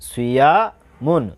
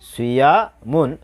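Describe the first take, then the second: No difference in how they are said.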